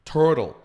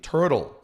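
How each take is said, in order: First: It is said with an American English accent. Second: It is said with an American English accent.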